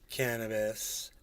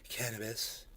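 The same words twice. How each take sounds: First: The word is said in a full voice. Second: The word is said in a whisper. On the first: "He'd say cannabis" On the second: "He'd whisper it out"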